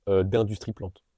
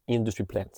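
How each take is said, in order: First: Said in the usual way. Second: "Industry plant" said in English, IN-dus-tree PLANT, flat English vowels; English accent. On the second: Shown as a demonstration. Naming the English term for a viewer, in an English accent. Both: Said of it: "avec un accent anglais".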